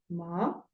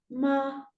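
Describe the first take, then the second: First: The pitch rises from low to high. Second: The pitch stays high and level. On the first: "tono ascendente ... sube" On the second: "ese es un tono uno sostenido"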